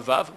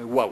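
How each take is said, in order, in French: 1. Le mot commence par un son v. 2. Le mot commence par un son w. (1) "Pas vav" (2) "on prononce waouh"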